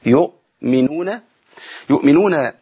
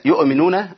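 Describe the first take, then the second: First: يؤمنون with a clean stop on the hamza; correct pronunciation. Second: يؤمنون with the hamza given a vowel; wrong pronunciation. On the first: Teacher showing students يؤمنون with a clean hamza stop. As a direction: cut voice and breath at the hamza in يؤمنون. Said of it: "نقطع صوت ونفس". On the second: Teacher warning students, يؤمنون with a voweled hamza. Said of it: "تحريك الهمزة ده مرفوض". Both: Shown as a demonstration.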